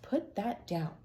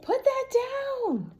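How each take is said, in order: First: It is said calmly, without shouting. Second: It is shouted loudly, like screaming.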